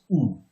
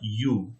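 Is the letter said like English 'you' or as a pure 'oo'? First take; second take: pure oo; English you. First: It is said as a pure 'oo' vowel. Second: It is said like English 'you', with a glide. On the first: The speaker calls it right. "It is U" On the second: The speaker calls it wrong. "it is not U"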